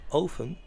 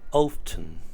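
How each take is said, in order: First: The T sound is left out. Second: The T sound is clearly pronounced.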